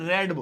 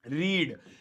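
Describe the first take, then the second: First: The vowel is short, like 'red'. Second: The vowel is long, like 'reed'. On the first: It is the past second or third form. "बोलने में रीड नहीं है, उसे हम रेड बोलेंगे" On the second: It is the present-tense first form. "इसकी first form तो रीड होती है"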